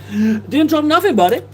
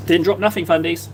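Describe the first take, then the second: First: Jokey high-pitched repeat of a chat message; silly high voice. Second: Said in the usual way. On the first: Pretend. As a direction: squeak it out like a cartoon goof. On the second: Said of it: "reads chat message aloud".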